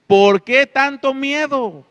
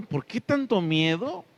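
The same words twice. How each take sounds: First: "¿Por qué tanto miedo?" shouted higher and louder, slow, falling hard on "qué"; Jesus rebuking the frightened disciples, loud and slow; loud rebuke. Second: "¿Por qué tanto miedo?" asked softly, ending on a rise; a gentle questioning read. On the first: Acted. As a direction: scold them with the question, high and loud. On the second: Shown as a demonstration. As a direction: ask "tanto miedo" as a real question, voice lifting at the end. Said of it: "Aquí están los, los signos de interrogación".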